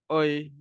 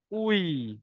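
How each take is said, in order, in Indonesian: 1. Bibir kendur, hasilnya 'oi'. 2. Bibir dibulatkan rapat, hasilnya 'ui'. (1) "jangan nak malas-malas, jangan nak oi" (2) "Pastikan mulut tu betul-betul ujung"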